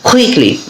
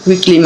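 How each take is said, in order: First: The first k sound has a strong breath puff. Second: The first k sound has no breath puff. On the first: The speaker calls it right. "এটা সঠিক উচ্চারণ হলো কুইকলি, যেহেতু খ উচ্চারণ হচ্ছে" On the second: The speaker calls it wrong. "এটা সঠিক উচ্চারণ নয়"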